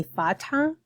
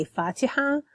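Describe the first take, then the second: First: Fatha with no vowel between ta and ha; Fatha without the E. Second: Fatiha with the long middle i kept; formal Fatiha. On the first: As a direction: drop the middle vowel: "Fatha". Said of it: "I would eliminate the E sound between the ta and the ha". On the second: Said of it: "Fatiha is also formal". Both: Shown as a demonstration.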